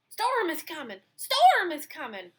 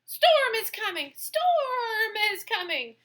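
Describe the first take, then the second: First: Higher, urgent dog's alarm; barking dog. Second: Bleating sheep. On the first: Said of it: "barked the dog". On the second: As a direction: bleat it in panic. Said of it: "the sheep bleated". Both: Acted.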